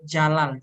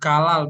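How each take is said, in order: First: The name begins with a J sound. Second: The name begins with a hard G sound. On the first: The speaker calls it right. "but Jalal" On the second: The speaker calls it wrong. "the pronunciation is not Galal"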